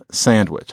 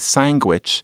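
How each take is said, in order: First: The word has its familiar standard pronunciation. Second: The word has an unfamiliar New York pronunciation. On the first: "instead of sandwich" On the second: "the first time I had ever heard anybody say sandwich"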